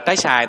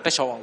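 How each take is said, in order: First: The second word has a plain a vowel. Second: The second word has a w-glide before a. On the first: This is the Southern form, close to the Sino-Vietnamese reading. "vào miền Nam gọi là trái xài" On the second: This is the standard Vietnamese form. "tức là trái xoài"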